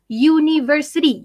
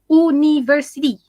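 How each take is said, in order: First: "university" opened with a clear "yoo" glide; stress-free correct "university", beginning Y-O-U; university with initial Y sound. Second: Mispronounced "university", opened as "oo-niversity"; university without Y sound. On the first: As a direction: say "university" starting like "you". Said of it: "when you say the word". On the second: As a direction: say "university" starting with a bare "oo". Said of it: "you don't say university". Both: Shown as a demonstration.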